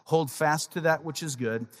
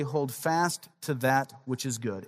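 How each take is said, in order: First: Said in the usual way. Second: Slow emphatic reading. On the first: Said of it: "In other words". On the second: Shown as a demonstration. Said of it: "Here's what he says".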